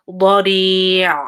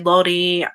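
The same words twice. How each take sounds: First: The final ayn sound is full and held. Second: The final ayn sound is clipped very short. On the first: The speaker calls it right. "try to like give time to it" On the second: The speaker calls it wrong. "don't make it too short either. Don't say bari"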